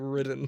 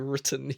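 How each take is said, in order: First: The middle consonant sounds like a d. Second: The middle consonant is a crisp t. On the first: The speaker calls it wrong. "You say ridden" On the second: The speaker calls it right. "You don't say written"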